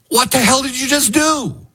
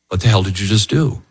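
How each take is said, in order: First: It is said as an emphatic, exclaimed question. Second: It is said as a plain question.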